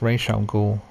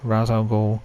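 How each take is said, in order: First: The name is said the comics way. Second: The name is said the film's way. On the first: This is how the original source says it. The speaker calls it right. "It's Ra's al Ghul in the comics in the animated series" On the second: This is how the film says it. The speaker calls it wrong. "so they say his name wrong"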